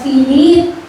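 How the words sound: The name is said in a loving voice.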